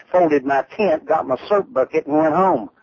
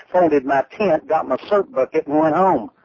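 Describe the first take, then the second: No difference in how they are said.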